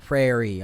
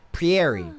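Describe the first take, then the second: First: "Prairie" said PRAY-ree; confidently corrected "Prairie", PRAY-ree; corrected pronunciation. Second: "Pieri" said as pee-AIR-ee; wrongly sounded-out "Pieri", pee-AIR-ee; mispronounced prairie. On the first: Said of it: "Okay, there we go". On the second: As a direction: say "Pieri" with an extra ee after the P. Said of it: "I'm saying that wrong". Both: Real, not acted.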